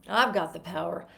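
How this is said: It sounds depressing, with the pitch dropping down. The speaker calls it wrong. "It sounds like the most depressing thing you've ever seen or said"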